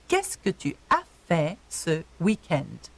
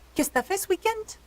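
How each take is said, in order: First: It is said slowly and fully. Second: It is said fast and reduced.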